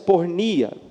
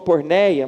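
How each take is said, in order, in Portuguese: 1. A vogal do meio soa como 'ee'. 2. A vogal do meio soa como 'ay'. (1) "a melhor pronúncia é pornia" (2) "Alguns até falam porneia"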